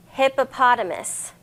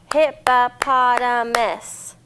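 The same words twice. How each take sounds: First: Said in the usual way. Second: Hippopotamus slowed and split hip-po-pot-a-mus, louder; syllables clapped out. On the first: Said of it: "This one's a tough one". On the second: Shown as a demonstration. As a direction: clap each syllable of hippopotamus slowly.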